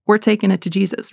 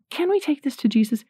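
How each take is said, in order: First: A settled, confident announcement; firm statement. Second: Higher, tentative request for permission; timid asking. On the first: Parent telling a child with calm authority. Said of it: "You just go and tell them". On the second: Parent wrongly asking a child's permission, tentative and high. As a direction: ask it hesitantly, as if they might say no. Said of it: "you don't say". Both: Shown as a demonstration.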